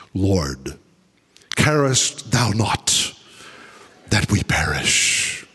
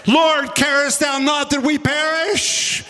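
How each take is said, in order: First: Low, slow, reverent scripture read; solemn King James reading. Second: Panicked scream. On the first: Shown as a demonstration. Preacher reading the King James verse in a low, solemn voice. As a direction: intone the old verse slowly and low. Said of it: "in the King James Version". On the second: Acted. Disciples waking Jesus in the storm, screaming in panic. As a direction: shout it in terror as the boat sinks. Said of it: "simultaneously screaming".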